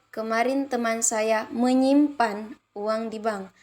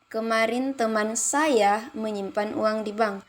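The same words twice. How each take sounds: First: The stress falls on the word menyimpan. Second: The stress falls on the word saya. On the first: "kalimat keempat menyimpan" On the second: "kalimat ketiga saya"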